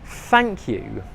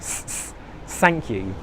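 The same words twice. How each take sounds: First: It begins with a soft th sound. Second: It begins with a hissing s sound. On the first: The speaker calls it right. "the most important word in English, is thank you" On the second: The speaker calls it wrong. "with the S sound"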